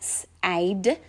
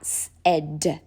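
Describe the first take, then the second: First: The vowel is sounded as a long 'ay'. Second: The vowel is sounded as a short 'eh'. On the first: The speaker calls it wrong. "instead of saying S-A-D" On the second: The speaker calls it right. "you would sound it out S-E-D"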